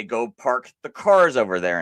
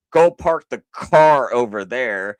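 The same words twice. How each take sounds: First: "cars" pressed firmly as the correct plural; stress on cars. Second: Louder, pressing on "car" as the faulty version; incorrect singular example. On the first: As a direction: land on "cars" to show the right way. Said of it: "You would say". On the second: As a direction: sell the wrong example with a bit more force. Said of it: "that would be incorrect". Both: Shown as a demonstration.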